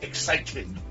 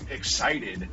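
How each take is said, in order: First: The middle T is crisp and hard. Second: The middle T is soft and relaxed. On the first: This is how the man talks now. "he's not saying excited" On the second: This is how the man used to talk. "a couple years ago"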